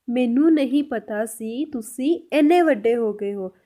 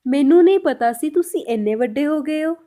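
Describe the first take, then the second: First: Slow, measured dictation pace; slow repeat. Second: Said in the usual way. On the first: Shown as a demonstration. Teacher repeating the Punjabi translation for learners, slowly. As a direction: draw the sentence out word by word.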